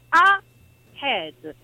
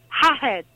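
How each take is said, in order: First: The word starts with a plain vowel sound. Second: The word starts with an added h sound. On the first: The speaker calls it right. "staccate la A dal resto della parola" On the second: The speaker calls it wrong. "Aggiungono l'H all'inizio, che non serve"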